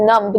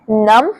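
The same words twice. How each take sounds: First: "numb" said as num-b; wrong, sounded b. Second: "numb" said as NUM; "numb" rhyming with "thumb", b unsounded; silent b. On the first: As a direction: add an audible b after the m in "numb". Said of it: "numb बोलोगे तो गलत हो जाएगा". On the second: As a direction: end "numb" on the m, no b. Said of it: "बी word होता है वो silent". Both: Shown as a demonstration.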